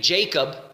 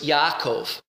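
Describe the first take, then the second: First: The name begins with a J sound. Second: The name begins with a Y sound. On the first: This is the English form of the name. The speaker calls it wrong. "we in the English will say Jacob" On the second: This is the Hebrew form of the name. The speaker calls it right. "it's Yaakov... It's more of a yuh sound"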